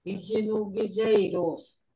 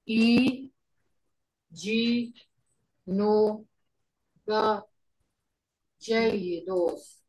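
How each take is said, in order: First: Said in the usual way. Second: "E G no ga jaigidos" with a long pause after each syllable. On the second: Shown as a demonstration. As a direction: spell out "E G no ga jaigidos" slowly for a learner. Teacher breaks phrase down for learner.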